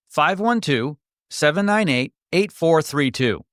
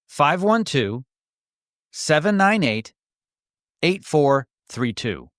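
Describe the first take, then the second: First: The number is read at normal speed. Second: The number is read more slowly.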